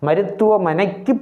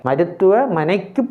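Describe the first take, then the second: No difference in how they are said.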